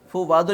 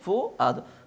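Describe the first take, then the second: First: A clear w sound is said mid-word. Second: No w sound is said mid-word. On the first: The speaker calls it wrong. "फू वादो नहीं पढ़ेंगे" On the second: The speaker calls it right. "क्या पढ़ेंगे? फू आदो"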